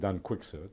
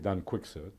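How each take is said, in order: First: The name has an English pronunciation. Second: The name has an English pronunciation.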